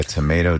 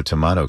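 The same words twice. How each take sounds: First: "tomato" with a long a: tuh-MAY-toh; first tomato pronunciation. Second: "tomato" with a broad ah: tuh-MAH-toh; second tomato pronunciation. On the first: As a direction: say "tomato" to rhyme with "potato". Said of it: "tomato kind of thing". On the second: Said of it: "It's like a tomato". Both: Shown as a demonstration.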